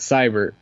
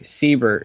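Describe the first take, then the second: First: The first syllable sounds like 'sigh'. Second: The first syllable sounds like 'see'. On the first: The speaker calls it wrong. "It's not Seibert" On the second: The speaker calls it right. "It's actually Siebert"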